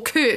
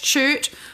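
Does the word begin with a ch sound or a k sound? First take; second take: k; ch. First: The word begins with a k sound. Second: The word begins with a ch sound. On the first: "kurt with a silent H" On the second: "a C-H chert"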